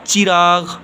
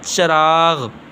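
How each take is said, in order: First: The first vowel is an i sound. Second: The first vowel is an a sound. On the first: The speaker calls it right. "ये लफ्ज़ हमारे पास सही है" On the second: The speaker calls it wrong. "ज़बर डाल देते हैं तो ये गलत है"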